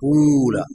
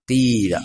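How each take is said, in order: First: The first vowel is a rounded 'oo' sound. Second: The first vowel is a front 'ee' sound. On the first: The speaker calls it wrong. "أن تخلص ضمة الحرف الأول فتقول قول" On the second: The speaker calls it right. "قيل بكسر الأول"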